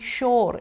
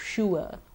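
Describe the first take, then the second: First: The vowel is a flat or sound. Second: The vowel glides from oo to uh. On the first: The speaker calls it wrong. "We are quite used to saying sure" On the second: The speaker calls it right. "instead of sure"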